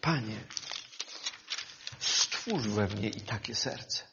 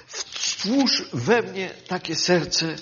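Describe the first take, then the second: First: "stwórz we mnie" breathed as a private prayer; hushed heartfelt petition; quiet prayer. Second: Said in the usual way. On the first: Real, not acted. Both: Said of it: "w moim sercu jest to pragnienie".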